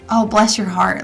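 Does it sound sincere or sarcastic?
sincere. It sounds warm and sincere.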